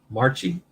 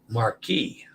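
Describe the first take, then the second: First: The middle consonant sounds like 'ch'. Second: The middle consonant sounds like 'k'. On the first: The speaker calls it wrong. "I stumbled over that one" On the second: The speaker calls it right. "The C H I has the K sound"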